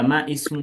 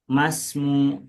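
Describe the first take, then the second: First: The vowel of ismu is kept and pronounced. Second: The vowel of ismu is dropped and linked. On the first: The speaker calls it wrong. "tidak ma ismu, bukan" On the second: The speaker calls it right. "Kalau dia ada di tengah-tengah kalimat, harokatnya dibuang"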